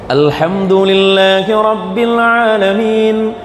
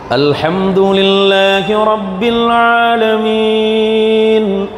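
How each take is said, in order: First: It is recited at a quicker pace. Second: It is recited at a slow pace. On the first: "agak sedikit dicepatkan" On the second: "Yang tartil"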